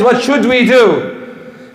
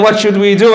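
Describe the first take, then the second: First: "what should we do?" higher and drawn out; emphatic repeat. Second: Said in the usual way. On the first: Shown as a demonstration. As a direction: slowly press home "what should we do?". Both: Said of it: "I'm trying to emphasize".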